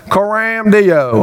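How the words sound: It is said in a put-on Texas accent.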